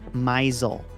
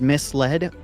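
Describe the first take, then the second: First: It sounds like 'my' followed by 'zled'. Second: It sounds like 'miss' followed by 'led'. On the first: "was pronounced misel" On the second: "the word misled"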